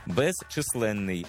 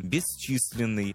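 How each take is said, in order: First: Безчисленний with hard Ukrainian vowels, bez-chy-SLEN-nyi; безчисленний, spelled-out Ukrainian sounds, slow; Ukrainianized russism. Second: Безчисленний said the Russian way, bis-CHIS-lin-nyi; безчисленний with Russian reduced vowels; Russian pronunciation. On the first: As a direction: say безчисленний slowly, clear E in the first syllable. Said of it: "замість русизму". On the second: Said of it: "Порівняно із російським". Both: Shown as a demonstration.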